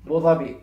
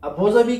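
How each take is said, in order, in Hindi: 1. नाम सीधे 'bo' से शुरू होता है, स्वर छोड़ दिया जाता है। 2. नाम पूरे 'abu' अक्षर से शुरू होता है। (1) "हम कहेंगे बोज़ाबी" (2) "की जगह"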